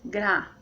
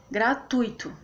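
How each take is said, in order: First: "Gratuito" as gra-tui-to; syllable by syllable. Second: Said in the usual way. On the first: Shown as a demonstration. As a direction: keep tui together in Gratuito, long pauses either side. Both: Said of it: "O U e o I ficam juntos".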